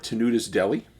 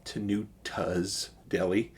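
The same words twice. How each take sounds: First: "Tenuta's Deli" in a Chicago accent, said like "Tenudas Deli" with the t as a d; quick Chicago "Tenuta's Deli", flapped d in the middle. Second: "Tenuta's Deli" slow and soft, with a crisp t in "Tenuta's"; slow careful "Tenuta's Deli", each t sounded; careful correction. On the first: Real, not acted. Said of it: "got that Chicago accent in me. I always change some T's to D's". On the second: Shown as a demonstration. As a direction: correct yourself, pronouncing the t in "Tenuta's" clearly. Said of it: "I always change some T's to D's".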